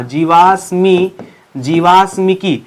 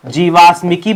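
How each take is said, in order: First: "जीवाश्मिकी" drawn out part by part; slow, measured syllables on "जीवाश्मिकी"; slow dictation. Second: Said in the usual way. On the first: Shown as a demonstration. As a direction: dictate "जीवाश्मिकी" slowly, stretching the long vowels. Teacher dictates the term.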